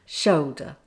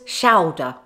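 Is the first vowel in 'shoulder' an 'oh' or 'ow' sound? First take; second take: oh; ow. First: The first vowel sounds like 'oh'. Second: The first vowel sounds like 'ow'. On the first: The speaker calls it right. "shoulder with the O sound" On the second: The speaker calls it wrong. "not to be pronounced as shoulder"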